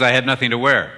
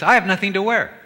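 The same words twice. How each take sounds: First: A husband's flat statement, stress on wear; husband's line. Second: A wife's lament, pitched higher; wife complaining about her wardrobe, higher voice; wife's line. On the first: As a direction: say it matter-of-fact, leaning on wear. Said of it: "Her husband says". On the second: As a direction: play the wife, up high with a stress on I. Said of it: "A wife says". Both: Retold or imitated.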